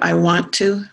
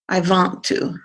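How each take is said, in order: First: The word 'want' begins with a w sound. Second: The word 'want' begins with a v sound. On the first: "Instead of I want to" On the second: "I think it may be switched with W"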